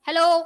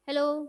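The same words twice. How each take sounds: First: The word is said loudly and forcefully. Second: The word is said softly and quietly. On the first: The sound is strong enough to make an echo. "इतनी जोर से बोलेंगे" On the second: The sound is too weak to make an echo. "इतना धीरे बोलेंगे"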